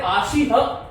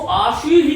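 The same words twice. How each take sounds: First: आशी ह ending on a separate "ha"; wrong visarga. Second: आशी ही as "ashihi", echoing the i; correct visarga. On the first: Retold or imitated. Teacher rejects some people's version, आशी ह as "ashi-ha". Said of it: "आशी ह नहीं". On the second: Shown as a demonstration. Teacher models for students, आशी ही as "ashihi". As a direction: finish आशी ही on a breathed "hi". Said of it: "विसर्ग को वहीं से बोलना".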